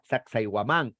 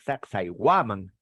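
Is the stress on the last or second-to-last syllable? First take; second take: last; second-to-last. First: The stress falls on the last syllable. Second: The stress falls on the second-to-last syllable. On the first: The speaker calls it wrong. "no existe la palabra Sacsayhuamán" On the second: The speaker calls it right. "el quechua, correcto, es grave"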